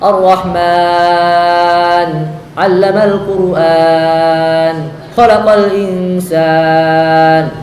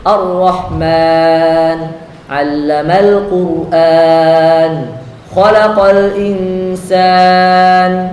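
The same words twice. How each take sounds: First: The final long vowel is stretched very long. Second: The final long vowel is held moderately long. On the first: The speaker calls it wrong. "jangan kita baca mat aridnya dengan enam harokat. Gak sesuai" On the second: The speaker calls it right. "kita baca empat ketika kita membaca dengan tadwir"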